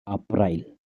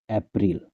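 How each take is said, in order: First: It is said with a Hindi pronunciation. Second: It is said with an English pronunciation. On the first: "haka Hindi April" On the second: "English April"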